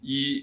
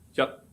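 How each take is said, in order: First: The syllable ends openly without a final stop. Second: The syllable ends abruptly with a clipped stop. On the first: "If you read it in Mandarin, you say yi is a level tone" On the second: "a entering tone word pronounced as yat"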